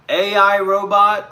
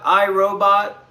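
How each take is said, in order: First: A I Robot, spelled out as letters. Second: I, Robot said slowly as the word I; slow correction, I, Robot with a pause; corrected title. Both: Shown as a demonstration.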